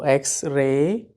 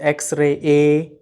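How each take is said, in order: First: The final vowel glides smoothly in one go. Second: The final vowel is broken into separate sounds. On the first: The speaker calls it right. "in like a one go X-ray" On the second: The speaker calls it wrong. "We don't say X-ray a"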